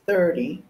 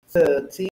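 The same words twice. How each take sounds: First: American "thirty", R sounded, T flapped. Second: "thirty" with a crisp T, louder; British-style "thirty", clear aspirated T. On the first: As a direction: tap the middle T in "thirty" like a D. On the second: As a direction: hit a hard T in "thirty". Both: Shown as a demonstration. Demonstrates two pronunciations of each number.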